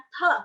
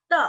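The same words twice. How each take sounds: First: Te for pinyin T, with a puff of air; short te with air released after the t; aspirated te. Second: Te for pinyin D, no puff of air; short te with the t unaspirated. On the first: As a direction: breathe out sharply on the t of te. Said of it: "Ada aspirasi". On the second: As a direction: say te without releasing air after the t. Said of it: "D dalam bahasa". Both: Shown as a demonstration.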